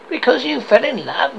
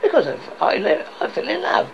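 First: High, incredulous echoed question; growled disbelief. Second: Lightly raised, halting answer; earnest nephew. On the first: Scrooge repeats his nephew's reason, scornful disbelief. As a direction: throw it back as a scornful question. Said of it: "growled Scrooge". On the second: Nephew tells Scrooge why he married, mildly earnest. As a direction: explain it with a touch of eagerness. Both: Acted.

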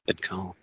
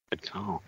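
First: Said in the usual way. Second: Quiet aside. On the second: Real, not acted.

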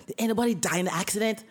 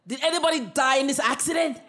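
First: Boss's coaching line. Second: Louder, higher, bearing down on anybody; forceful challenge. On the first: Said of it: "Listen to me carefully". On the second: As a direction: lean in hard on the customer. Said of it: "I press my hand really hard on the desk". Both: Retold or imitated.

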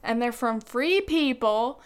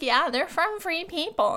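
First: Said in the usual way. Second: Higher, breezy fake-casual fib; playfully faking a straight answer; mock innocent claim. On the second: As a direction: pretend it's true, all innocence. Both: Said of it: "And I was like".

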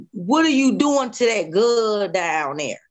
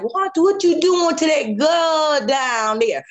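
First: Said in the usual way. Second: Put-on old man's call. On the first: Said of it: "But I heard". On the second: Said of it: "he said, he like".

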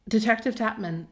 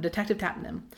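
First: "Tapman" said with m before n; stumbled name. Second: "Tapnam" said with n before m; careful name. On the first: Host tripping over the detective's anagram name, "Tapman" ending in -man. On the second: Host getting the hard anagram name out, careful "Tapnam" ending in -nam. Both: Real, not acted. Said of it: "it's hard to say".

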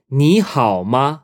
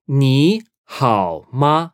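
First: Said in the usual way. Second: "Ni hao ma" slowly, syllable by syllable; drawn-out learner's version of "Ni hao ma"; slow teaching model. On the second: Shown as a demonstration. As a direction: separate "Ni", "hao" and "ma" with gaps.

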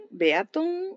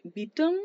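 First: "Beaton" said beh-AH-ton, high; alternative pronunciation. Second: "Beaton" said BEE-ton; unsure pronunciation. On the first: Reviewer trying the surname as spelt, "Beaton" as high beh-AH-ton. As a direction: sound out "Beaton" with separate e and a. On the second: Reviewer guessing at the author's surname, "Beaton" as BEE-ton. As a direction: say "Beaton" with one long ee vowel. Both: Shown as a demonstration. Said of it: "Si alguien sabe cómo se pronuncia".

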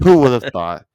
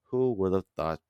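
First: Loud repeat. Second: Said in the usual way. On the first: Acted. Repeats line for effect.

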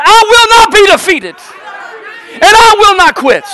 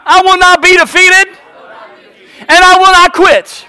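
First: Very high, full-force rallying cry; peak-intensity pulpit chant; shouted like you mean it. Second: Chanted, high, loud call to the congregation; chanted, shout it out for them to echo; chanted, bold pulpit declaration; rallying chant. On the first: Shown as a demonstration. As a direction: shout it with total conviction. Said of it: "Say it like you mean it". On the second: Real, not acted.

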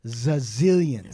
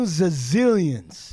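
First: Slow stretched zazillions; drawn-out zazillions. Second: Very slow, dragged-out zazillions; stretched zazillions. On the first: Describing the rich lawyer's wealth, slow stretched word. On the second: Insisting on the lawyer's fortune, very slow dragged word. Repeated, even slower. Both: Real, not acted.

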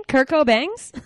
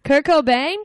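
First: "[name]'s" said as co-BANGS, questioning; high, loud "[name]'s" rhyming with fangs; rapper's name, Cobangs. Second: "[name]" ending like "bane", questioning; high, loud "[name]", rhymes with rain; singer's name, [name]. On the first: Playing the Who's on First mix-up, "[name]'s" as co-BANGS. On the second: Playing the Who's on First mix-up, questioning "[name]". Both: Pretend. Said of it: "musical version of Who's on First".

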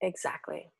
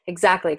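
First: Breathy whispered Exactly. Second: Exactly whispered at normal level. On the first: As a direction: whisper it almost to yourself. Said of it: "repeats agreement softly". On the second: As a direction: whisper it again, a bit fuller. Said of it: "repeated whispered agreement". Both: Real, not acted.

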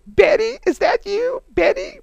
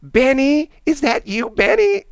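First: Much higher, louder, teasing Benny call; mocking high lady voice. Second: Much higher, louder, sing-song call of Benny; squeaky drunk lady. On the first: Officers teasing Benny over the radio, high falsetto. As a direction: squeak it like mocking the secretary. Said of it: "other officers ... just go". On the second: Retold or imitated. Drunk secretary calling up to the officer, high sing-song. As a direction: pitch way up like a tipsy old secretary. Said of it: "And she goes".

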